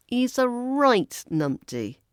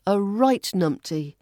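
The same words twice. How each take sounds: First: "right" stretched and pitched high; stress on right. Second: Said in the usual way. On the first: Shown as a demonstration. Teacher demonstrating affectionate name-calling, heavy stress on "right". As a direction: lean long and high on "right". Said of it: "You could stress right".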